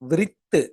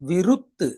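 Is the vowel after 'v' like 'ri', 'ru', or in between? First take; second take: ri; ru. First: The vowel after 'v' sounds like 'ri'. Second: The vowel after 'v' sounds like 'ru'. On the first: "விரித்து அப்படின்னும் சொல்லல" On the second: "விருத்து அப்படின்னும் சொல்லல"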